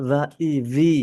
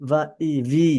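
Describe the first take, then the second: No difference in how they are said.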